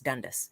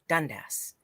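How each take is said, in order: First: The last syllable has a 'u' vowel. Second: The last syllable has a clear 'a' vowel. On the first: The speaker calls it wrong. "like D U N D U S S" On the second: The speaker calls it right. "Dundas, right?"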